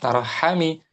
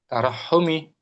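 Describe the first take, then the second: First: The vowel after the double h is a. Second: The vowel after the double h is u. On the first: The speaker calls it wrong. "Jangan tarahhami" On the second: The speaker calls it right.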